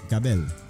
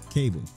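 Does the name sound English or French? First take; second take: French; English. First: The name has a French-sounding pronunciation. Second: The name has a plain English pronunciation. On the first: "it's pronounced Cabel, so that way it sounds more French and more unique" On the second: "It's Cable"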